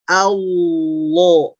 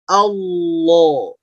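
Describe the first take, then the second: Both takes have the same delivery.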